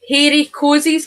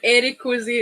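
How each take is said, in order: First: The name starts with an added H sound. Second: The name starts with a plain vowel sound. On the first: "I'm going to have to say it like this" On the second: "instead of Eric Cozy"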